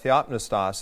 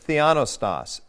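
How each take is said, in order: First: The word is said with a P sound. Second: The word is said without a P sound. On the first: "the way I was taught to say it" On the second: "He doesn't pronounce the P"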